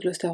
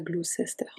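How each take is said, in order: First: The middle syllable is dropped, giving two syllables. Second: The middle syllable is sounded, giving three syllables. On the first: The speaker calls it right. "on dit Gloucester" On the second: The speaker calls it wrong. "on dit pas Gloucester"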